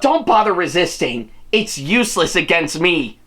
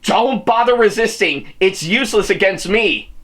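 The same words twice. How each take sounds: First: It is read in a strong villain character voice. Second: It is read with little or no character voice. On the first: "maybe I could do it a little bit more" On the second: "did I actually uh, do the whole Sigasura voice?"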